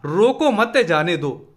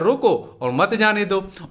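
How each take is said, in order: First: The pause comes after the second word, मत. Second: The pause comes after the first word, रोको.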